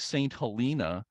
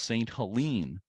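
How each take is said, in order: First: The name ends with an 'ah' vowel. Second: The name ends with an 'een' sound. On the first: The speaker calls it wrong. "I was saying Saint Helena" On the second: The speaker calls it right. "locally it's pronounced Saint Helene, as if it has an e at the end"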